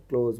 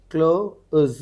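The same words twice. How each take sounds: First: Said in the usual way. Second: close slowly, pulled apart into its sounds; sounded out. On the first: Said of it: "तो इसको क्या लिख रहे हैं अपन". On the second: Shown as a demonstration. Teacher decodes a transcription, close sounded out slowly. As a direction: stretch and split close. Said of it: "close बोल के आ रहा ना".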